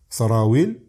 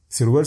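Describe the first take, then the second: First: The word has three syllables. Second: The word has two syllables. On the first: This is the original Arabic word. The speaker calls it right. "le vrai mot, c'est sarawil" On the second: This is the dialect form. The speaker calls it wrong. "c'est un mot de dialecte"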